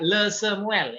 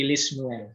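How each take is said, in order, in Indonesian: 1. Preposisinya diucapkan dengan vokal e. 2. Preposisinya diucapkan dengan vokal i. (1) "tidak le Samuel" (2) "Jadi dia menjadi li Samuel"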